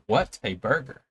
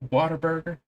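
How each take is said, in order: First: The first part is said as 'what a'. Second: The first part is said as 'water'. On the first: This follows the way the name is written. "it's what a burger. Like literally what a burger" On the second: This is how most people say the name. "everyone calls it water burger"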